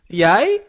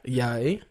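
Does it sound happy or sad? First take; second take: happy; sad. First: It sounds happy. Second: It sounds sad.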